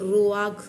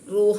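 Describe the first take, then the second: First: The word ends in a rough throat consonant. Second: The word ends in an open vowel sound. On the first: The speaker calls it right. "ശരിക്കും അതിൻ്റെ പ്രൊനൗൺസിയേഷൻ വരുന്നത് റൂവാഗ് എന്നാണ്" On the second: The speaker calls it wrong. "റൂഹ എന്നൊക്കെ നമ്മളിങ്ങനെ പറയും"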